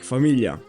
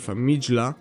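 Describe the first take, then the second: First: The middle consonant is a soft, palatal L. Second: The middle consonant is a hard, separate G. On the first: The speaker calls it right. "ll is like a soft L sound" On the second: The speaker calls it wrong. "it's not famigla"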